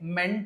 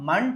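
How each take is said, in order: First: The vowel in the suffix is a clear 'e'. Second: The vowel in the suffix is a reduced 'a'. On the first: The speaker calls it wrong. "మెంట్ అని కాకుండా" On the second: The speaker calls it right. "మంట్ అని చదవాలి"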